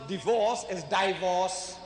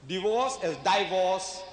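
Both takes have the same delivery.

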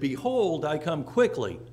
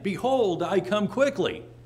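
First: It is said calmly, without extra emphasis. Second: It is said with a little more emphasis.

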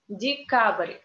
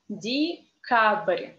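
First: The word is said fast. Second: The word is said slowly.

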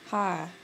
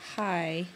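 First: The vowel is a flat single 'ah' sound. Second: The vowel glides from 'ah' to 'ee'. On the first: "with an I want to say ah" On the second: "I don't want to say hi"

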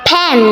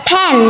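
The two takes are said the same way.

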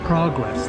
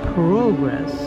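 First: The word is pronounced in an American way. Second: The word is pronounced in a Canadian way. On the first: "that's how Americans say progress" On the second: "I just reverted to Canadian again"

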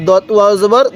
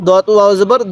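The two takes are said the same way.

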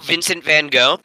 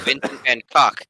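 First: The surname is said in the familiar English way. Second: The surname is said with a hard final k sound.

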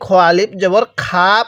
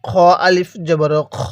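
First: The final vowel is drawn out long. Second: The final vowel is kept short. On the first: The speaker calls it wrong. "যদি খ আলিফ জবর খা পড়ি তাহলে কিন্তু পড়াটা সহি শুদ্ধ হবে না।" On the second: The speaker calls it right. "এই আলিফটাকে কিন্তু বাদ দিব"

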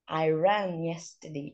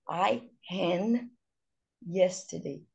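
First: The r in ran is an English r. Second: The r in ran is an h-like sound. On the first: The speaker calls it right. "ao invés de falar run, I ran yesterday" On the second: The speaker calls it wrong. "O brasileiro com dificuldade... ele vai falar I ran yesterday"

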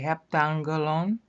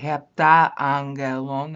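First: The middle vowels are merged into one. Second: The middle vowels are said separately. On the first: The speaker calls it right. "You're going to have to say heptangelon" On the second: The speaker calls it wrong. "You can't say heptaangelon. That makes you sound drunk"

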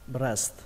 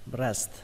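The two takes are said the same way.

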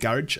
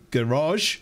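First: The word is said with a British pronunciation. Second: The word is said with an American pronunciation. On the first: "as we would say" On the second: "as the Americans would say"

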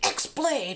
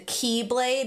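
First: The name begins with the sound 'ex'. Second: The name begins with the sound 'key'. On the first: The speaker calls it wrong. "I've been saying it wrong" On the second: The speaker calls it right. "I didn't know the X was pronounced key"

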